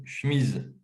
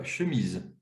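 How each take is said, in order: First: "chemise" squeezed to one syllable, "chmise"; "chemise" as said in the Doubs, "chmiz"; regional pronunciation. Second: "chemise" with the first e sounded, "che-mise"; full schwa in "chemise"; standard pronunciation. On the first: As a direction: drop the first e in "chemise". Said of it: "on dit par exemple une chemise". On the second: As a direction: say "chemise" in two syllables. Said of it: "je veux écrire le mot". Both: Shown as a demonstration.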